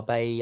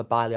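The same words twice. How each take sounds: First: Bailly said like "BAY-ee"; "ay" vowel and silent l in Bailly; preferred pronunciation. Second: Bailly said like "BY-lee"; alternative pronunciation. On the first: Fan settles on the player's name, Bailly pronounced "BAY-ee". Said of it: "I think it is actually Bailly". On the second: Fan unsure of the player's name, Bailly pronounced "BY-lee". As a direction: open "eye" vowel and an l in Bailly. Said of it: "I call him either Bailly or Bailly". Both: Shown as a demonstration.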